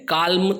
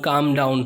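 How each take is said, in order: First: The L sound is pronounced in the word. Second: The L sound is silent in the word. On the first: The speaker calls it wrong. "काल्म तो हम बोल ही नहीं पाएंगे।" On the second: The speaker calls it right. "तो L silent है।"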